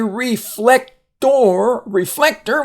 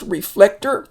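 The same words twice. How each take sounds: First: Spell-it-out delivery of "reflector", final OR given its full vowel; sounded out. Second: "reflector" run together, ending in a reduced "ter"; natural connected "reflector", unstressed ending; said fast. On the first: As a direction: say "reflector" as re-flec-TOR, with a gap before "tor". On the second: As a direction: say "reflector" in one go, final OR weakened to "er". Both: Shown as a demonstration. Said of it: "when you, we say it fast".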